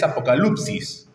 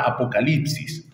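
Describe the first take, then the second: First: "apocalipsis" said the Greek way, apo-ka-LUP-sis with an oo sound; Greek pronunciation. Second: "apocalipsis" in plain Spanish, a-po-ca-LIP-sis with an i sound; Spanish pronunciation. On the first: Preacher giving the congregation the original Greek "apocalipsis" as apokalupsis. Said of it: "la palabra griega es". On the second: Preacher showing the congregation the Spanish form "apocalipsis" with an i. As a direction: say "apocalipsis" the Spanish way, i in the third syllable. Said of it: "de donde obtenemos la palabra". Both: Shown as a demonstration.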